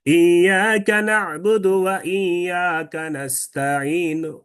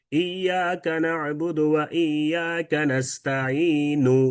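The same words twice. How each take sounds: First: Slow chant, "নাস্তাঈনু" fading to a faint short "nu"; rawm, light final vowel. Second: Slow Quranic chant, "নাস্তাঈনু" ending on a fully sounded "nu"; full final vowel. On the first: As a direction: chant it out, then only lightly touch the last u of "নাস্তাঈনু". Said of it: "কিন্তু হালকা করে". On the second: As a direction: chant it slowly and give the last "nu" of "নাস্তাঈনু" its whole, clear sound. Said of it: "পুরোটা ইস-, স্পষ্ট করে শুনাইছেন". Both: Shown as a demonstration.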